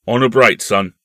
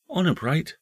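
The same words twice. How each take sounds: First: Loud, firm grown-up uncle voice; hearty uncle. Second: Put-on high-pitched small boy voice; earnest young nephew. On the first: Acted. Uncle giving his nephew his word, loud and hearty. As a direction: pledge it loudly, man to boy. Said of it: "said the uncle". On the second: Nephew asking his uncle for a pledge, high and earnest. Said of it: "said the nephew".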